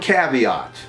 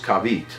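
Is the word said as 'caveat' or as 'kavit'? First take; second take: caveat; kavit. First: The word is said the standard way, as caveat. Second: The word is said shortened, as kavit. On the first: The speaker calls it right. "I finally learned how to pronounce the word caveat" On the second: The speaker calls it wrong. "which I used to pronounce as kavit"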